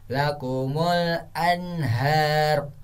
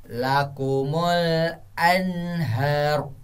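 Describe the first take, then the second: No difference in how they are said.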